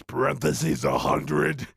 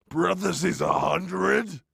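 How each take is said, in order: First: Said in the usual way. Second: Parentheses, a hundred said higher; higher repeat. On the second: Real, not acted. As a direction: raise the pitch on Parentheses, a hundred. Repeats stage note.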